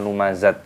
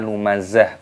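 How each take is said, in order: First: The word ends with a t sound. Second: The word ends with an h sound. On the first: The speaker calls it wrong. "bukan lumazat" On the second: The speaker calls it right. "dimatikan menjadi huruf H, maka dibaca lumazah"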